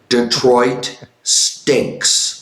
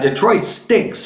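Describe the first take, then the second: First: The phrase is said slowly and deliberately. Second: The phrase is said at a normal pace.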